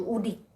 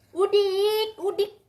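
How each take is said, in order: First: Said in the usual way. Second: Higher and louder, a playful taunt; a mum loudly teases the cat who refuses medicine; loud teasing. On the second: Real, not acted. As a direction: jeer at the cat like a bumpkin.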